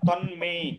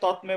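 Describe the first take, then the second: First: The middle consonant is an n sound. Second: The middle consonant is a t sound. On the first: The speaker calls it right. "তন্মে বলতে হবে" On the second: The speaker calls it wrong. "উচ্চারণের সময় তৎমে বলা যাবে না"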